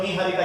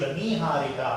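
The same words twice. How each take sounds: First: निहारिका with a short first 'i'; mispronunciation demo. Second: निहारिका with a long first 'ee'; correct pronunciation. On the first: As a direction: say निहारिका as ni-haa-ri-kaa. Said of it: "ये अशुद्ध है". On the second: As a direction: say निहारिका as nee-haa-ri-kaa. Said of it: "ये शुद्ध". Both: Shown as a demonstration.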